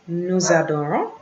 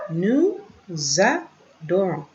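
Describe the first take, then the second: First: Said in the usual way. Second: "Nous adorons" broken into slow, separate pieces; spaced-out teaching pronunciation; syllable by syllable. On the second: Shown as a demonstration. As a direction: model "Nous adorons" slowly with gaps between syllables. Syllable-by-syllable model for learners.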